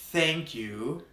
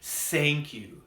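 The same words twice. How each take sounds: First: It begins with a th sound. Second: It begins with an s sound. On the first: The speaker calls it right. "bite your tongue and then blow air through it" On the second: The speaker calls it wrong. "you will make the S or Z sound. I often hear this mistake"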